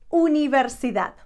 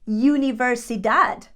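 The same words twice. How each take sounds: First: The first vowel is a plain Spanish 'oo' sound. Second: The first vowel is an English 'you' sound. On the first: The speaker calls it right. "It would be universidad" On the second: The speaker calls it wrong. "Because in English is you, we tend to say"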